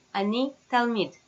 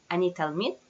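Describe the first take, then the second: First: "Ani talmid" with a falling tune at the end; statement intonation. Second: "Ani talmid" with a rising question tune at the end; question intonation. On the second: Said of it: "Question, intonation is enough". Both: Shown as a demonstration.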